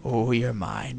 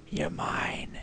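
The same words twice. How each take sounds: First: Said in the usual way. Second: You're mine breathed as a whisper. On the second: Shown as a demonstration. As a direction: whisper it possessively to the prize.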